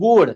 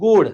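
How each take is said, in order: No difference in how they are said.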